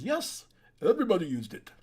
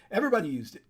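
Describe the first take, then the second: First: Put-on lightly done Austrian accent, a bit louder; terrible Arnold Schwarzenegger accent. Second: Said in the usual way. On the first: Vlogger quotes Arnold on steroids in a weak Austrian accent. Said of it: "that's a terrible Arnold accent". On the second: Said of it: "but anyway".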